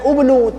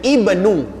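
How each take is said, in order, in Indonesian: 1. Kata ini dimulai dengan vokal u. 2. Kata ini dimulai dengan vokal i. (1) "patut disebut dengan ubnu, tapi tidak dibaca ubnu"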